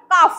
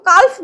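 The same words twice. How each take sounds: First: কাফ with a silent L, just kaf; correct pronunciation. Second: কালফ with the L sounded, as the wrong way; wrong pronunciation. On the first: Teacher shows her class the right way, কাফ with silent L. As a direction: say কাফ with no L at all. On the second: Teacher shows her class the mistake, কালফ with the L spoken. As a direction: say কালফ, voicing the L in the middle. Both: Shown as a demonstration. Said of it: "এলটা এখানে উচ্চারণ হবে না".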